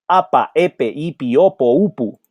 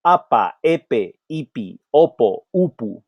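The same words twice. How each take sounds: First: "apa, epe" said quicker; faster drill. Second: "apa" fast and even; drill. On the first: Teacher speeds up the drill. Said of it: "A little bit faster". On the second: Teacher drilling APA patterns. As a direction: model the pattern. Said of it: "we have apa". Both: Shown as a demonstration.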